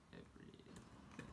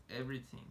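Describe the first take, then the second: First: Breathy whispered echo of "Everything"; hushed repetition of "Everything". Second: Said in the usual way. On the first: Shown as a demonstration. Whispered echo of model word.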